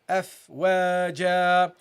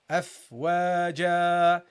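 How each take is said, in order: No difference in how they are said.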